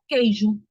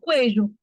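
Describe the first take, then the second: First: The word starts with a plain k sound. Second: The word starts with a k and a w sound. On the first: The speaker calls it right. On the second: The speaker calls it wrong.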